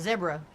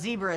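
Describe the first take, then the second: First: Zebra is said in a non-American way. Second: Zebra is said in an American way. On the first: This is the form insisted on as correct. "not American when they say" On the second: This is the form that is rejected. "It's not a zebra"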